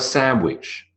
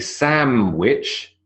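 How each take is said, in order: First: No consonant links the two syllables. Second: An m sound links the two syllables. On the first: "or nothing at all" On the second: "you have a M"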